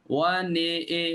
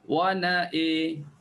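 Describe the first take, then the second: First: The middle syllable is tilted toward 'ne'. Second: The middle syllable keeps an open 'na'. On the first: Both the nun and the hamzah take imalah. "Na jadi ne. A jadi e" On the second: Only the hamzah takes imalah. "dia cuma imalahkan hamzah sahaja"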